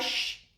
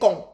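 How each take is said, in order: First: It is said with a soft sh sound. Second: It is said with a hard k sound. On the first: The speaker calls it wrong. "ce n'est pas ch" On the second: The speaker calls it right. "c'est con"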